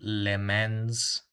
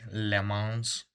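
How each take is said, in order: First: It is said with an English pronunciation. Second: It is said with a French pronunciation. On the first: "for non-French people" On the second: "that's French Le Mans"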